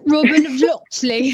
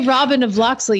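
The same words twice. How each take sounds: First: It is said in an English accent. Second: It is said in a plain accent.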